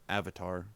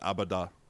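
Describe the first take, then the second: First: The word is said in a plain accent. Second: The word is said in an Austrian accent.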